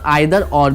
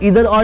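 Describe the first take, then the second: First: The first vowel of either sounds like 'eye'. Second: The first vowel of either sounds like 'ee'. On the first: "आइदर और भी पढ़ते हैं" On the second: "इसको इधर और भी पढ़ते हैं"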